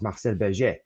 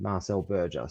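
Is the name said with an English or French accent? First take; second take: French; English. First: The name is said with a French accent. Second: The name is said with an English accent. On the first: "I have to say it in French" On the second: "don't understand Marcel Berger"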